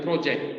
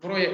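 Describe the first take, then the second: First: It is said with English sounds, ending in -ject. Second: It is said with Indonesian sounds, ending in -yek. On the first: An activity or learning task. The speaker calls it right. "tapi project" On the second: A paid job involving money and work. The speaker calls it wrong. "bukan proyek bacanya"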